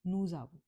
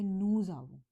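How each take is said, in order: First: नूजावू run together as one word, z joining the vowels; नूजावू said as one unbroken French word; liaison as one word. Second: नूज आवू with the z of नूज carried into आवू; French liaison. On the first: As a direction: glide नूजावू out as a single word. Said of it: "साथ में pronounce करोगे as a single word". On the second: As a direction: link नूज into आवू with a z sound. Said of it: "मैंने pronounce किया नूज आवू". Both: Shown as a demonstration.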